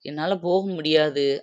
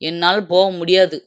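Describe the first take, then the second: First: It is said softly and gently. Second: It is said loudly and forcefully. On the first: The speaker is unable to go. "மென்மையா சொல்லும்போது" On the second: The speaker refuses to go. "மொத ஓங்கி சொல்றேன்"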